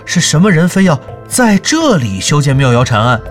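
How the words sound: The stress falls on the word for here. The question asks why it was built here. The speaker calls it right. "重音在这里。"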